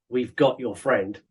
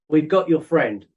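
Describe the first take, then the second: First: It sounds menacing and threatening. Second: It sounds friendly and helpful.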